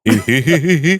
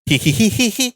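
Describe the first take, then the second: First: The laugh is in a deep, grand voice. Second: The laugh is in a high, feminine voice. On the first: "ഗംഭീര്യം" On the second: "ഇത് പെണ്ണിന്റെ വോയിസാ"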